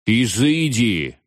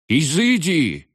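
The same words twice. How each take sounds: First: Slow shout, the voice cracking; voice breaking. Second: Much higher, slow shriek. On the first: Veniamin banishing the ghosts, voice breaking. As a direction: try to command, but crack. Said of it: "но его голос сорвался". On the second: Veniamin shrieking at the witch in panic. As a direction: squeal it out in panic. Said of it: "взвизгнул Вениамин". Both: A narrator's reading.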